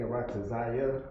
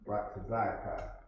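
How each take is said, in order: First: The word ends with a 'ya' sound. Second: The word ends with a 'ka' sound. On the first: The speaker calls it wrong. "I've always been saying Ratazaya for some reason" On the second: The speaker calls it right. "When it's Ratazaka"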